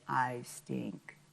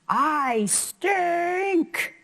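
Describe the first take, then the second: First: It is said flatly, without excitement. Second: It is said big and excited.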